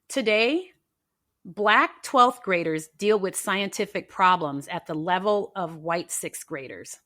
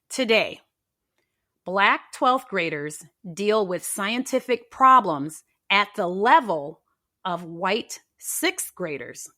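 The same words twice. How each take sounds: First: It is said at normal speed. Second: It is said slowly.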